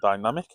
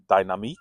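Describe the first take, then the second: First: The word is pronounced the English way. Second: The word is pronounced the French way. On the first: "I'm going to say it's the TomTom Dynamic" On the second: "if you want to pronounce it correctly"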